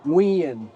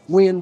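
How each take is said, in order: First: The name is said as two syllables. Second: The name is said fast as one syllable. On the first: "Like we would say Nguyen, like it's a two syllable word" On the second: "they'll say it very fast, as if it's only one syllable"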